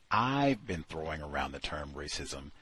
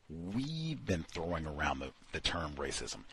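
First: I've said a touch firmer, the rest plain; stress on I've. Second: We've given a light push, then the rest fades softer; stress on we've. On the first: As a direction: lean on I've, as the correct singular form. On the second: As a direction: mark we've as the odd royal form. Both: Shown as a demonstration. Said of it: "but as opposed to saying".

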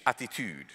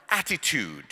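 First: Attitude in a Swedish accent, with a laugh. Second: Attitude said the English way; English pronunciation. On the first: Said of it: "now say it like Swedish". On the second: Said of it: "Can you say it like English people?". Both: Shown as a demonstration.

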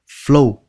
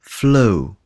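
First: Flu cut short; short vowel, wrong. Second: Flu with the u drawn out slowly; long u. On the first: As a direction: clip the u in flu. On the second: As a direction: stretch the u in flu. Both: Shown as a demonstration. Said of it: "Kéo dài cái chữ U ra nha".

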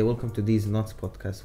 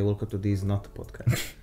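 First: The intro said as "These Nuts Podcast"; "Nuts" with a plural s. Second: The intro said as "These Nut Podcast"; "Nut" without the s. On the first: Retold or imitated. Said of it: "Why does Yusuf always say". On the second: Shown as a demonstration. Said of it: "when he's supposed to say".

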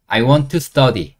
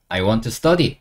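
First: Very slow, each word clear; slow model phrase. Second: Said in the usual way. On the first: Shown as a demonstration. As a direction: say it slowly for learners to copy. (천천히 또박또박) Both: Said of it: "공부하고 싶으니까 I want to".

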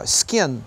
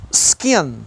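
First: Skin with a tight, closed I, close to an E. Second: Said in the usual way. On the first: Shown as a demonstration. Teacher to Brazilian students, Skin with a closed I. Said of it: "Lembra que o I é mais fechadinho um pouquinho". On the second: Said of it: "Lembra que o I é mais fechadinho".

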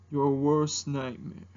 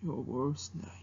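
First: Low, slow mock-menacing dragon; Mushu. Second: Low, very soft mock menace; Mushu. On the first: Dragon answering who are you, low menacing impersonation. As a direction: drag out the threat, deep and slow. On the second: Dragon echoing worst nightmare, low and very soft impersonation. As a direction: let the threat sink away, hushed and deep. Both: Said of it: "doing an impersonation of Mushu".

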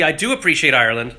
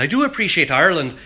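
First: Accidental slip into an Irish lilt; slight Irish accent. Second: Put-on Irish accent, pitched up. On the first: Real, not acted. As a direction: let a hint of Irish accent creep in. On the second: Shown as a demonstration. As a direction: lean into the Irish accent on purpose. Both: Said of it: "I even just slipped into an Irish accent".

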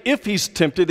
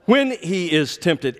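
First: "if" picked out, the rest quick and even; stress on "if". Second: Slow, deliberate reading leaning on "when"; stress on "when". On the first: Preacher rejects a misreading of the verse, stressing "if". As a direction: lean on "if" as the wrong reading. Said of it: "it didn't say if he's tempted". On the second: Preacher corrects the reading for the congregation, stressing "when". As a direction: set "when" firmly apart, then measure out the rest. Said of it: "it says". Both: Shown as a demonstration.

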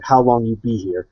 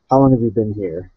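First: Broken-English phrasing, measured pace; clear in-character repeat. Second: Said in the usual way. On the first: Acted. Warrior priest repeating his question to the dwarf, measured delivery. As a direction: say it distinctly, as the character. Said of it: "I'll say it more clearly".

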